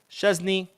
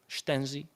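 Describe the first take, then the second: First: The name is said with an English pronunciation. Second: The name is said with a Polish pronunciation. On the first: "I always say Szczesny" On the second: "in Polish"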